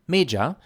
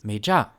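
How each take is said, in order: First: The stress is on the first syllable. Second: The stress is on the second syllable. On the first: "the irregular stress on the me syllable" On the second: "which would be pronounced regularly as"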